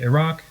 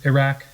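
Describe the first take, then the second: First: It is pronounced close to the local way. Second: It is pronounced in an anglicized American way. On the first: "in ways more similar to how people from those places pronounce them"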